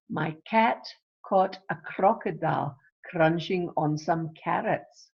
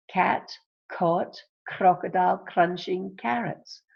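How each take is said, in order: First: Said in the usual way. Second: "Cat caught crocodile crunching carrots", each word hit separately; key words stressed. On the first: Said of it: "What's the sound?". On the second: Shown as a demonstration. Teacher isolates the C sound, hitting "Cat caught crocodile crunching carrots" word by word. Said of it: "So you've got your C sound there".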